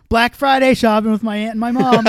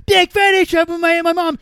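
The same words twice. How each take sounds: First: Loud, raised read-out of someone's post; quoted tweet. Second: Very high, loud mocking squeal; mocking parroting. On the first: Retold or imitated. Drunk friend reads out a tweet he is replying to, loud and raised. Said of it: "Like, if they said". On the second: Drunk man mocks a stranger's tweet back at them, squeaky and loud. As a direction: parrot their words back in a silly high voice. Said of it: "I'd go".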